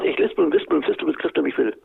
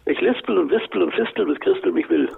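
First: The phrase is spoken at a normal pace. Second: The phrase is spoken slowly.

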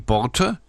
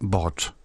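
First: The word ends with a final vowel sound. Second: The word ends on the consonant, no final vowel. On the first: This is the northern German form. "Im Norden sagen wir die" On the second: This is the southern German form. "in Süddeutschland sagen wir"

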